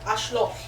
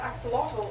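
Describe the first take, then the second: First: The final tl is a harsh, hissed side sound. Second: The final tl sounds like a plain English ending. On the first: The speaker calls it right. "T T Ls are supposed to be pronounced" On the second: The speaker calls it wrong. "axolotl is not axolotl"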